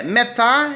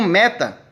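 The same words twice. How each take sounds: First: "metá" with the stress on the last syllable; "metá", end-stressed like an oxytone; final-syllable stress. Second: "meta" with the stress on ME; "meta", stressed at the front, ending unstressed; first-syllable stress. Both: Retold or imitated. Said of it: "ele pronuncia como meta".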